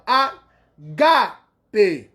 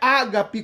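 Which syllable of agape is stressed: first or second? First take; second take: second; first. First: The stress is on the second syllable. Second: The stress is on the first syllable. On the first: The speaker calls it right. "o agudo no grego está no alfa, né, na segunda sílaba" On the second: The speaker calls it wrong. "Não é ágape como a gente vê na transliteração"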